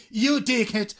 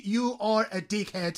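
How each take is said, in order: First: "You dickhead" punched as a direct insult; emphatic YOU. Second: Said in the usual way. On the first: Shown as a demonstration. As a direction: hit "You" and drop onto "dickhead". ("You dickhead" con énfasis de insulto) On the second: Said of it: "En vez de decir".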